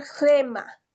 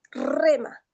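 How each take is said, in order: First: "gema" with a strong jota-like G at the start; rough breathing as G. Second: Said in the usual way. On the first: Shown as a demonstration. Teacher models the Greek rough breathing for the class. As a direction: say "gema", not rema, with a breathy throat sound. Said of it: "vamos a pronunciar gema". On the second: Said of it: "ya no vamos a pronunciar rema".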